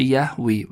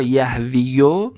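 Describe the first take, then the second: First: یهوی said "yah-VEE", ending on a long i; damma dropped. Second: یهویو said "yah-VI-yo", ending in a short o; damma on final ya. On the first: Teacher showing the form after the rule, shortened "yahvi". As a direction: close یهوی on ee with no yo. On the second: Teacher showing the underlying form, full "yahviyo". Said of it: "ضمه از یا میفته". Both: Shown as a demonstration.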